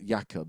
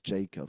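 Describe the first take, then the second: First: The name is said with a Scandinavian pronunciation. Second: The name is said with an English pronunciation. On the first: "the Scandinavian um, pronunciation, which is Jakob" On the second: "because it's like spelled J A K O B"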